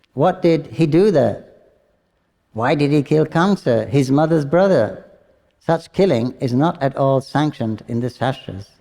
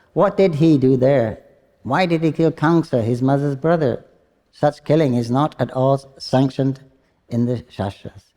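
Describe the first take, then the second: The two takes are said the same way.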